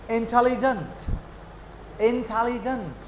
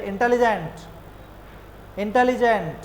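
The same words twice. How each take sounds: First: इंटेलिजेंट with a soft dental t and light vowels; correct way. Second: इंटेलिजेंट with hard retroflex t, Indian style. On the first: Shown as a demonstration. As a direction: say इंटेलिजेंट the proper English way. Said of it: "इंटेलिजेंट ऐसे बोलते हैं". (सही अंग्रेज़ी उच्चारण में इंटेलिजेंट) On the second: Retold or imitated. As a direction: imitate how Indians say इंटेलिजेंट. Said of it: "हम क्या बोलते हैं?". (भारतीय अंदाज़ में इंटेलिजेंट)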